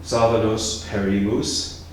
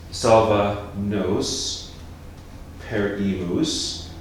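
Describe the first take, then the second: First: Said in the usual way. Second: "Salva nos perimus" spelt out slowly, each syllable apart; slowly counted syllables. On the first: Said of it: "next one". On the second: Shown as a demonstration. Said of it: "because perimus has three syllables".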